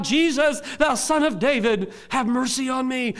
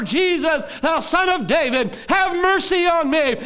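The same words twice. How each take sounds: First: Loud, raised plea for mercy; crying out. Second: High, full-voiced shouted plea; crying out louder. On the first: Acted. Blind man begging Jesus for mercy, crying out. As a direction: call out high and loud for help. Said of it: "he begins to cry out". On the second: Blind man refusing to be hushed, crying louder. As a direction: shout it higher and louder, stretching the last plea. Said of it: "cried out the louder".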